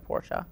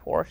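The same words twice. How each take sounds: First: The word is said with two syllables. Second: The word is said with one syllable. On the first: The speaker calls it right. "It's two syllables" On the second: The speaker calls it wrong. "people say Porsche"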